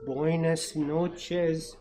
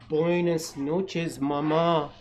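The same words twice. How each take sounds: First: Sleepy goodnight. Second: Tender goodnight. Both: A narrator's reading. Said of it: "said the baby chick".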